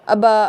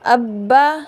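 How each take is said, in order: First: The b sound is short and single. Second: The b sound is doubled and held firmly. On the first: The speaker calls it wrong. "अबा अभी ऐसे नहीं पढ़ना" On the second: The speaker calls it right. "इसको मज़बूती के साथ पढ़ना है"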